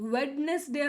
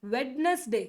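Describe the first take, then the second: The two takes are said the same way.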